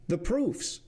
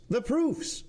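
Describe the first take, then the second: First: Higher, demanding call with a falling end; calls for the proofs firmly, higher; demanding president. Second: Much higher, rising repeat; insistent repeat. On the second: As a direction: pushes the demand up a notch, higher still. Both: Acted. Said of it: "said the president".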